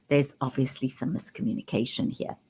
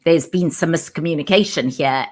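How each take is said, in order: First: Low, quiet dig on "obviously"; quietly loaded, with "obviously" implying blame; pointed remark. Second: Said in the usual way. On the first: Shown as a demonstration. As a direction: drop the voice and slip in "obviously" as a reproach. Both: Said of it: "because there's a big difference between".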